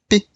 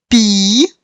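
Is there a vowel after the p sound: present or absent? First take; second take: absent; present. First: The p is said with the vowel dropped. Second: A full i vowel follows the p. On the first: "retiramos esse i, mas deixamos o som p" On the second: "Nós falamos pi"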